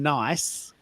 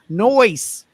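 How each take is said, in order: First: The vowel sounds like the 'eye' sound. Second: The vowel sounds like the 'oy' sound. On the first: "instead of saying nice" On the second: "Melburnians would say noise"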